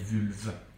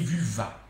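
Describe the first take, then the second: First: The name ends on the consonant, with no final vowel. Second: The name ends with an added 'a' vowel sound. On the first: This is the name as the household says it. "C'est drôle comme il appelle Vulve" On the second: This is how a foreign newcomer says the name. "Il dit vulva"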